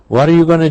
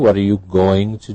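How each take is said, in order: First: 'Going to' is reduced to 'gonna'. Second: 'Going to' is said as two full words. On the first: "you heard the reduced form" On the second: "you had to supply the correct form"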